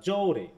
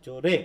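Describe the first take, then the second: First: জোরে with জো drawn out and stressed, falling on রে; stress on first syllable. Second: জোরে with রে hit harder, rising at the end; stress on second syllable. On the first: Teacher giving the other option, stress on জো in জোরে. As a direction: lean on জো, let রে fall away in জোরে. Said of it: "কোন সিলেবলটার উপর বেশি force দিচ্ছ". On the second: Teacher demonstrating emphasis to the class, stress on রে in জোরে. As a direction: put the force on the last syllable রে of জোরে. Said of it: "রে এর উপর আমি একটু জোরে". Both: Shown as a demonstration.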